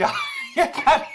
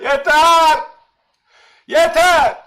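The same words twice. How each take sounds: First: A real laugh breaking into the word yeter, high; giggling out yeter as if chat can't be stopped. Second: Yeter called out loud and sharp; firm shout. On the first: Streamer laughing at his chat, telling them enough. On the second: Streamer telling his chat to stop, loud and firm. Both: Real, not acted.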